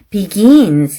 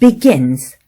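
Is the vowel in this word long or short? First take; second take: long; short. First: The vowel is drawn out long. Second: The vowel is said short. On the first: The speaker calls it wrong. "이렇게 길게 말했다든지" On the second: The speaker calls it right. "단음에는"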